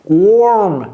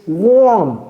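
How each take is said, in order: No difference in how they are said.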